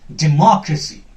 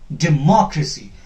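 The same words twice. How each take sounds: Both takes have the same delivery.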